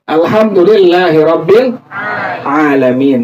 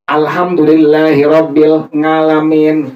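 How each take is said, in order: First: The last word begins with a throat sound. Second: The last word begins with a nasal 'ng' sound. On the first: The speaker calls it right. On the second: The speaker calls it wrong.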